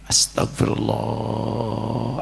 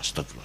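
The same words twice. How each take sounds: First: It is said slowly with deep feeling. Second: It is said quickly and mechanically.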